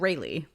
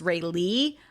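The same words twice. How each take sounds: First: The stress is on the first syllable. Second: The stress is on the second syllable. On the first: This is how the reader had been saying it. The speaker calls it wrong. "I didn't say it that way. I said Rayleigh" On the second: This is how the book intends the name. The speaker calls it right. "spelled phonetically like little R A Y capital L E E"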